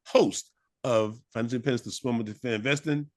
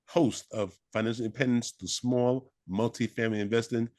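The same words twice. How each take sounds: First: It is said at a normal, quicker pace. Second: It is said more slowly and deliberately.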